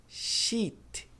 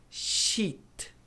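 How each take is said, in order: No difference in how they are said.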